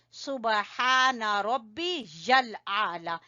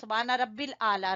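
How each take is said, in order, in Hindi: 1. इसे 'rabbi yal' की तरह कहा जाता है, साफ़ 'y' के साथ। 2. इसे 'rabbil' की तरह कहा जाता है, 'y' की आवाज़ के बिना। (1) "रब्बिल आला नहीं पढ़ना बेटा" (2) "कई बच्चों को मैंने सुना है वो पढ़े होते हैं"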